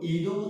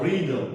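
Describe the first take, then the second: First: The word starts without an R sound. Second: The word starts with an R sound. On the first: The speaker calls it wrong. "কি কখনো কেউ ইদম উচ্চারণ করে? No, never." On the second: The speaker calls it right. "It always pronounce রিদম।"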